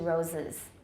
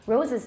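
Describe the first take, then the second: First: The second vowel is a reduced schwa. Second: The second vowel is a clear short i. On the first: "We reduce it to roses" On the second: "Roses 听起来太清楚了。"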